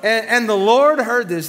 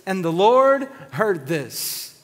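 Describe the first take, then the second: First: Louder, slower, Lord hammered home; loud, slow preacher emphasis; dramatic loud repeat. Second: Drawn out, stress on Lord; slow, solemn scripture read; slow and weighty. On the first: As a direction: boom "the Lord heard this" with warning. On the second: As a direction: let "the Lord heard this" sink in slowly. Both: Shown as a demonstration. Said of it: "somebody say, "Uh-oh".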